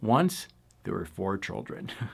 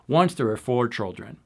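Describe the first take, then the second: First: The phrase is spoken with a marked, lilting rhythm. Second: The phrase is spoken straight, with even rhythm. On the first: "I like to say" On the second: "You could just say it straight"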